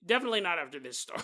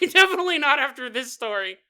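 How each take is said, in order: First: Said in the usual way. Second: Laughing loudly as the line repeats; louder, laughing retake. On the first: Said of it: "repeats it laughing". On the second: Real, not acted. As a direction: crack up while saying it again.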